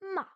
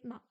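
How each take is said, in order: First: The pitch starts high and drops sharply. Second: It is said with no tone at all. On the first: "c'est celui qui part du haut et qui descend tout d'un coup" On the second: "le ton neutre, c'est le ton où il n'y a pas de ton"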